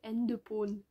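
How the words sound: It is said with Korean pronunciation. "mais version coréenne"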